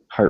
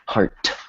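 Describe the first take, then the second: First: The final T is soft, short and cut off. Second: The final T is released hard and clearly. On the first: The speaker calls it right. "it's soft and it's quick" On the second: The speaker calls it wrong. "right there I just made it a hard T"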